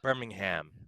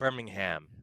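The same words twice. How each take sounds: First: It is pronounced a non-British way. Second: It is pronounced a non-British way.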